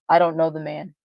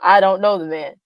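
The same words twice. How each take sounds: First: It is said calmly, without force. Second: It is said forcefully, like an exclamation.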